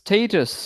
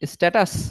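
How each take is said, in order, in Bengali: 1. প্রথম স্বরবর্ণটি 'day' শব্দের 'a' এর মতো শোনায়। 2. প্রথম স্বরবর্ণটি 'cat' শব্দের 'a' এর মতো শোনায়। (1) "it is actually pronounce as স্টেটাস" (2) "so is it actually pronounce as স্ট্যাটাস?"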